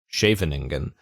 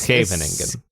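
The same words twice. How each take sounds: First: The word begins with a single 'sh' sound. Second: The word begins with 's' then a throaty 'kh'. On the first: The speaker is not a native Dutch speaker. The speaker calls it wrong. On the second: The speaker sounds like a native Dutch speaker. The speaker calls it right.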